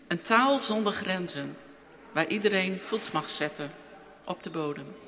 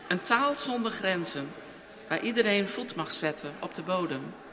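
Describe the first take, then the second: First: There is a pause after 'grenzen'. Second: The phrase runs on without a pause. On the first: The speaker calls it wrong. "Dat moet aan elkaar" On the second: The speaker calls it right. "Doe het nog een keer"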